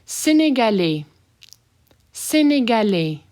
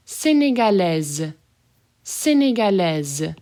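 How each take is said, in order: First: Sénégalais with no final S; masculine form. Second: Sénégalaise with the S buzzed as Z. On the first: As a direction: finish Sénégalais on the vowel. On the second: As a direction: let Sénégalaise end on a Z. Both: Shown as a demonstration. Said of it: "That S as a Z".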